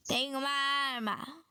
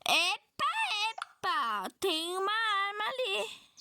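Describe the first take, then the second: First: Said in the usual way. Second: Slower, higher, startled "Tem uma arma ali"; a sudden discovery, drawn out; surprised. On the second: Real, not acted. Spots a weapon in the game. (surpresa ao ver a arma)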